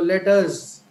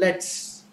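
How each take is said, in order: First: It is said in full as two separate words. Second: It is said contracted as one short word.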